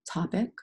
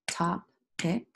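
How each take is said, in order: First: Said in the usual way. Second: "Topic" as two separate beats, top, ic; broken into syllables. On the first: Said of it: "let's say the word topic". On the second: Shown as a demonstration. Teacher breaking the word apart, "Topic" in separated syllables. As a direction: pause between the halves of "Topic". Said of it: "Let's break it apart".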